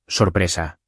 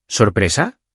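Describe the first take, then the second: First: Said in the usual way. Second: SORPRESA with a sharply rising question tune; questioning echo. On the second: A narrator's reading. Daughter echoes her father's surprise, questioning, rising SORPRESA. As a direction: echo "Sorpresa" as a question, pitch climbing at the end.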